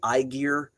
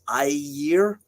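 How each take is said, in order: First: The middle consonant is a hard G sound. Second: The middle consonant is a soft Y sound. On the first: The speaker calls it wrong. "a lot of people say Aegir" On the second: The speaker calls it right. "that G is a soft G Y sound, so it's Aegir"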